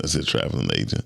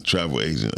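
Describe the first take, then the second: First: Said in the usual way. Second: "Travel agent" said carefully, stressing travel; "Travel agent" with a firm stressed first syllable; corrected word. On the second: Shown as a demonstration.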